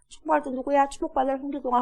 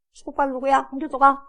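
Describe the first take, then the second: First: Higher, lightly distant call; hint at the blessing bouncing back; imitated echo. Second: Higher-pitched imitated call; dutiful son calling out. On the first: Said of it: "자기 귀에 또 들려". (메아리처럼 되돌아오는 소리 흉내) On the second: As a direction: call the blessing out as told. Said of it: "엄마가 그렇게 시키니까 했어". (시켜서 외치는 아들 흉내)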